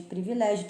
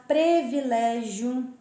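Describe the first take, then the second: First: Said in the usual way. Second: "privilégio" said as "previlégio", first vowel an e; wrong pronunciation. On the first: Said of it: "ao invés de privilégio". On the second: Shown as a demonstration. Teacher showing students the wrong form, mispronounced. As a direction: open with "pre" in "privilégio". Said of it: "privilégio ao invés de privilégio".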